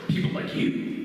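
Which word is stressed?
you. The word "you" carries the stress.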